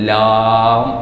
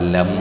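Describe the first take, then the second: First: The vowel is drawn out long. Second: The vowel is kept short. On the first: This is how foreigners pronounce it. "അവർ ലാം എന്ന് ഉച്ചരിക്കും" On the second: This is how Malayalis pronounce it. "നമ്മളിവിടെ ലം എന്ന് ഉച്ചരിക്കും"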